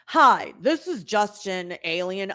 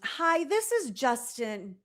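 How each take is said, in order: First: It is said in a dopey voice. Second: It is said in a normal voice.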